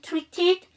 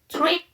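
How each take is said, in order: First: The -ed ending is fully pronounced. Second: The -ed ending is dropped before the next word. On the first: "treat에다가 ed가 붙었네. treated" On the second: "ed 발음 정확하게 안 해도 돼요"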